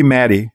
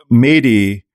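First: Maddie said with a short first vowel, "MAD-ee"; corrected name pronunciation. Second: Mady said with a long first vowel, "MAY-dee"; first-guess name pronunciation. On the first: Host correcting a listener's name, Maddie pronounced MAD-ee. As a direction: say Maddie to rhyme with daddy. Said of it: "it's probably Maddie". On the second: Host reading out a listener's name, Mady pronounced MAY-dee. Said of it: "I think I pronounce, it could be Maddie". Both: Real, not acted.

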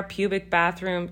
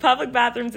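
First: "pubic" said instead of "public", no l; misread word. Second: "public" clearly with the l, laughing; "public bathrooms" stressed and laughed; laughing correction. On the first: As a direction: read "pubic bathroom" as pubic. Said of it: "public, public bathrooms". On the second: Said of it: "not pubic". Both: Real, not acted.

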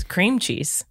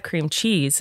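First: "CREAM cheese", first word hit, cheese dropping; imitated stress on cream. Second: "cream CHEESE", weight on second word; stress on cheese. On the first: Host voices someone saying it wrong, stress on cream. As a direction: mimic the odd way, punching "cream". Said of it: "The way you just said it". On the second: Shown as a demonstration. Host gives the lifelong version, stress on cheese. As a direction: say it her usual way, leaning on "cheese". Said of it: "when you've heard it your whole life".

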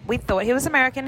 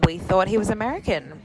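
First: Rushed, pitched-up retake; fast, higher repeat. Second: Said in the usual way. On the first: Shown as a demonstration. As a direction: blurt it again, faster and higher.

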